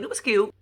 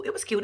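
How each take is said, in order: First: Breathy private It was cute; whispered. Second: Said in the usual way. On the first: Real, not acted. Repeated as a soft aside.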